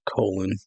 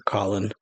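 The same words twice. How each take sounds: First: "Colin" said with a long o, COE-lin; first vowel of "Colin" as in coal; long-o pronunciation. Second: "Colin" said with an open vowel, COLL-in; first vowel of "Colin" as in doll; short-o pronunciation. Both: Shown as a demonstration. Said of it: "or Colin".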